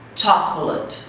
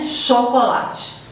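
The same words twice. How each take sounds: First: The word begins with a sharp 'ch' sound. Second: The word begins with a soft 'sh' sound. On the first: The speaker calls it right. "Em inglês, o C H tem o som de T" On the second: The speaker calls it wrong. "em português a gente fala chocolate"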